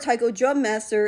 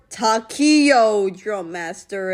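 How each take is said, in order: First: The first word is said as 'tie-ko'. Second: The first word is said as 'tah-kee-o'. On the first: The speaker calls it right. "Or Taiko Drum Master in English" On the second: The speaker calls it wrong. "as my two thousand sixteen self suddenly mispronounced it"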